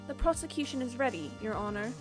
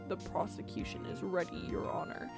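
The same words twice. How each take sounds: First: An earnest, polite voice that sounds very young. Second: A silly, comical put-on voice. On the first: The speaker calls it right. "my very earnest, polite voice that ... make him sound just super young" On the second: The speaker calls it wrong. "a really silly voice"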